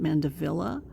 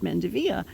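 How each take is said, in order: First: It is said with a common English pronunciation. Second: It is said with a French-influenced pronunciation. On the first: This is how most people say it. "most people probably pronounce it Mandevilla" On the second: This is how the local nursery owners say it. "Vietnam has has French influences, and so they pronounce this plant Mandevilla"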